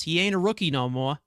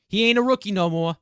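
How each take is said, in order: First: Said in the usual way. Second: Quick, louder New York accent on "ain't". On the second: Shown as a demonstration. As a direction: punch "ain't" with a streetwise New York twang. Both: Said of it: "I don't know where the New York accent came from".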